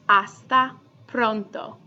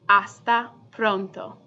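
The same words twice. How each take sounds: Both takes have the same delivery.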